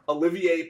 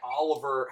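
First: The name is said with four syllables. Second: The name is said with three syllables. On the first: The speaker calls it right. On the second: The speaker calls it wrong. "Not Oliver"

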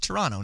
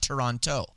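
First: The second T sound is dropped. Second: The second T sound is clearly pronounced. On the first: The speaker calls it right. "you don't pronounce the second T in Toronto. It's Toronto" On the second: The speaker calls it wrong. "not Toronto"

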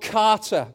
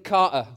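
First: It is said in a North American accent. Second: It is said in a British accent.

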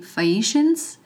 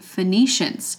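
First: No n sound follows the first syllable. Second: An extra n sound follows the first syllable. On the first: The speaker calls it right. "it's supposed to be Phoenicians. There is no second N" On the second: The speaker calls it wrong. "added in another consonant"

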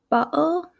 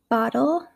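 First: Spoken in a British English accent. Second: Spoken in an American English accent. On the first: "how the pronunciation would be in England" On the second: "versus how I would say it in the US"

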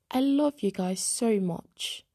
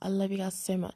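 First: It is said in an attempted British accent. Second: It is said in the speaker's normal accent.

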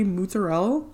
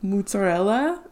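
First: The final vowel of the word is dropped. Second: The word is said in an Italian manner. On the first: The speaker calls it wrong. "You wouldn't say mozzarella. The A is there for a reason" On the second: The speaker calls it right. "as an Italian would say"

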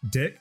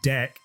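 First: The vowel sounds like 'ih', as in 'kick'. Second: The vowel sounds like 'eh', as in 'neck'. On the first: "I'm saying it with an I" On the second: "if I say it with an A"

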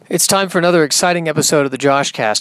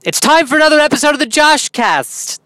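First: It is said with forced, overdone enthusiasm. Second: It is said in a silly, goofy manner.

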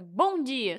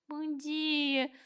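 First: It is said cheerfully, full of energy. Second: It is said glumly, low on energy.

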